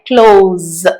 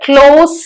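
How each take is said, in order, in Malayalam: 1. വാക്ക് അവസാനിക്കുന്നത് മൂളുന്ന z ശബ്ദത്തിലാണ്. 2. വാക്ക് അവസാനിക്കുന്നത് ചീറുന്ന s ശബ്ദത്തിലാണ്. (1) "ആ ഒരു ശബ്ദം വരുന്നുണ്ട്" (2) "അവിടെ ക്ലോസ് എന്നല്ല പറയുന്നത്"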